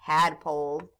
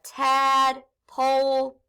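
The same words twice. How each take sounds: First: Said in the usual way. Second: Tadpole drawn out slowly; slow blending. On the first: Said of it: "So we have tadpole". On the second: Shown as a demonstration. Teacher blending tadpole for students, slowly. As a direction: stretch the word for the class. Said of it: "We remember that sneaky E".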